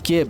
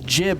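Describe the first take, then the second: First: The word begins with a hard G sound. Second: The word begins with a J sound. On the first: The speaker calls it wrong. "not gib" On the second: The speaker calls it right. "it's jib"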